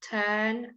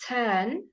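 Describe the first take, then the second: The two takes are said the same way.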